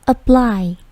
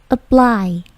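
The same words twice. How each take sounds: No difference in how they are said.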